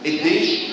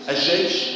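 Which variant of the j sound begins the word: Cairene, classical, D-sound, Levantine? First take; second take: D-sound; Levantine. First: The word starts with a d sound instead. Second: The word starts with the Levantine j sound. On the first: This is a regional pronunciation using d. "دي الجيم بتنطق دال" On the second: This is the Levantine regional pronunciation. "دي اسمها الجيم الشامية"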